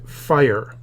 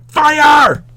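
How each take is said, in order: First: Said in the usual way. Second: Teacher corrects a flat take into a real scream. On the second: Shown as a demonstration. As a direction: fire shouted much higher and louder. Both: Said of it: "or rather, he screamed".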